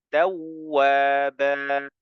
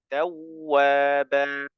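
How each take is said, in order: No difference in how they are said.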